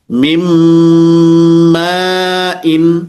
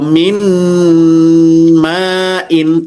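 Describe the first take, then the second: First: The n merges into a nasal m sound. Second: The n is pronounced clearly before the m. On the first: The speaker calls it right. "tapi mim ma'in" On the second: The speaker calls it wrong. "tidak dibaca min ma'in"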